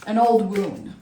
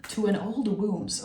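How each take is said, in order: First: WOUND restated without the final S; corrected WOUND, no S. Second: WOUNDS said with an extra S; stray S on WOUNDS. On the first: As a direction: correct yourself, ending WOUND on the D. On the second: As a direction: slip a plural S onto WOUNDS. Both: Real, not acted. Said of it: "S everywhere".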